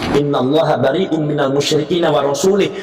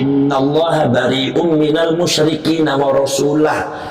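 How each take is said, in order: First: The last word ends with an i vowel. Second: The last word ends with a u vowel. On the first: God disowns both the polytheists and the Prophet. The speaker calls it wrong. "Coba kalau dibaca wa rasulih. ... Jadi sesat" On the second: God and the Prophet both disown the polytheists. The speaker calls it right. "Ini harus wa rasulah"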